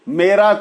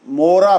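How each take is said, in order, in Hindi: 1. पहला स्वर e जैसा सुनाई देता है। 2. पहला स्वर o जैसा सुनाई देता है। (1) "ए" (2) "ओ बोल जाते"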